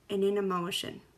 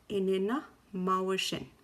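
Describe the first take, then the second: First: It is said at normal speed. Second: It is said slowly.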